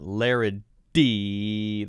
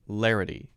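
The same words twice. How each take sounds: First: The middle consonant is a hard, strong D. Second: The middle consonant is a very light tap. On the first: The speaker calls it wrong. "It's not a hard D sound. It's not larity. That's too hard" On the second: The speaker calls it right. "Notice that very light sound"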